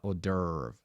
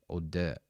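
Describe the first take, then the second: First: The last vowel has an r-colored, curled-tongue sound. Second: The last vowel is a plain uh with no r. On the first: The speaker calls it wrong. "not hors d'oeuvre" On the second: The speaker calls it right. "There's no r on the sound"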